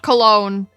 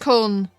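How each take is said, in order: First: The name is said in English, as Cologne. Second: The name is said with German vowels, as Köln. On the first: The speaker calls it wrong. "the Americans pronounce it Cologne" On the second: The speaker calls it right. "in German they pronounce it better"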